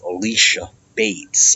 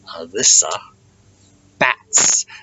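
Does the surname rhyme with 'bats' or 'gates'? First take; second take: gates; bats. First: The surname has a long 'ay' vowel. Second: The surname has a short 'a' vowel. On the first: The speaker calls it wrong. "they unfortunately mispronounced our friend" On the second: The speaker calls it right. "the name is pronounced the way it looks"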